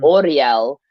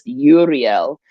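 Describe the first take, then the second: First: The name begins with an 'aura' sound. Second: The name begins with an 'oo' sound. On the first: "adding the A to it ... Oriel sounds like aura" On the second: "You can use it as just Uriel"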